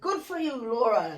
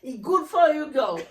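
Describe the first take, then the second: First: It is said in the speaker's own voice. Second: It imitates how the teacher really spoke.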